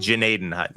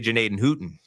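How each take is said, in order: First: The last part sounds like 'hutton'. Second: The last part sounds like 'hooten'. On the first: "It's actually" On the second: "sometimes I like to say"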